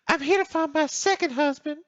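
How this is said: It is said in a Southern girl's voice.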